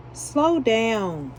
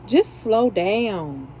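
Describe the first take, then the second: First: Said in the usual way. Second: Slow, drawn-out just slow down; slow emphatic advice. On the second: Shown as a demonstration. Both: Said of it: "all I'm gonna say is just slow down".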